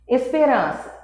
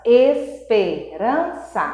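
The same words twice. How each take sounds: First: Said in the usual way. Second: "esperança" slowly divided into four beats; sílaba por sílaba. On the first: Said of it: "quatro sí-, quatro sílabas". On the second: Shown as a demonstration. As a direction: spell out "esperança" syllable by syllable, slowly. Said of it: "quatro sílabas". ("esperança" devagar, separada em quatro sílabas)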